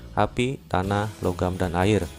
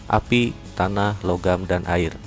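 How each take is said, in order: Both takes have the same delivery.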